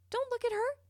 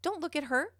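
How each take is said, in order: First: Repeated much higher in pitch; a sharp, pleading warning; emphatic repeat. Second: Said in the usual way. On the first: Acted. Warning a panicking kid not to look at her, much higher and emphatic.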